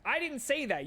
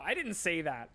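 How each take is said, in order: First: "I didn't say that" said much higher and louder, stress on "I"; emphatic retort. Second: Said in the usual way. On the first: Shown as a demonstration. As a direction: throw it back hard, hitting "I".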